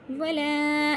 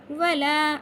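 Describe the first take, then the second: First: "वला" with a long-held final aa; wrongly stretched vowel. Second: "वला" chanted loud, final vowel not dragged out; unstretched alif. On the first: Teacher warning against stretching, "वला" held too long. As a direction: drag out the end of "वला". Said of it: "इस तरह से खींचना नहीं है". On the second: Teacher showing the cut alif, "वला" left unstretched. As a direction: recite "वला" without extending the alif. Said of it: "अलिफ पे कट लगा है". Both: Shown as a demonstration.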